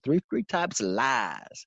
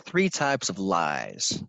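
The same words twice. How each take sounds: First: It is said in a thick Tennessee accent. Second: It is said in the speaker's ordinary accent.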